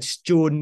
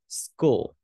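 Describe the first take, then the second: First: The word begins with a 'ch' sound. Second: The word begins with an 'sk' sound. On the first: The speaker calls it wrong. "Chứ phải chun đúng không?" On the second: The speaker calls it right. "Âm cờ đây"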